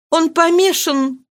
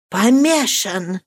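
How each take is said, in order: First: High, slow despairing cry; distraught. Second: Mild frightened echo. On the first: Marie telling Marianne her father is mad: distraught. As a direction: say it in horror. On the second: Marianne echoing the terrible news: frightened. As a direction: echo it in alarm. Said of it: "вскричала испуганным голосом". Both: Acted.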